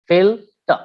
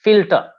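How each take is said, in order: First: "filter" split as fil, ter with a gap; syllable by syllable. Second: Said in the usual way. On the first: Shown as a demonstration. Teacher showing a disyllabic noun, syllable by syllable. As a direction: pause between the two syllables of "filter". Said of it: "disyllabic nouns". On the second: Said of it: "nouns like".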